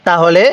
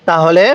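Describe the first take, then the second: The two takes are said the same way.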